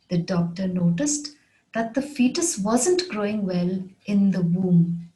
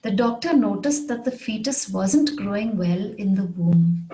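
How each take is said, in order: First: Measured, with a pause after "noticed"; careful repeat, phrase by phrase; phrased model repeat. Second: Said in the usual way. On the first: Shown as a demonstration. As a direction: break it into careful phrases for learners. Example repeated in phrases for learners.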